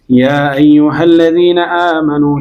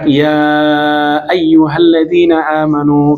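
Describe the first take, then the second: First: The long vowel is held for two beats. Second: The long vowel is held for four beats. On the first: "boleh juga dua harokat" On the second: "boleh empat harokat"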